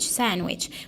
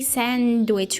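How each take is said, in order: First: The d sound is dropped entirely. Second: The d sound is clearly pronounced. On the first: The speaker calls it right. "we drop d" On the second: The speaker calls it wrong. "we don't say sandwich with d"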